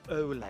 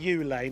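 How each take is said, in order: First: The name begins with an 'oh' sound. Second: The name begins with an 'oo' sound. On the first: This is the current way of saying the name. "now it's Olay" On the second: This is the older way of saying the name. "It used to be Ulay"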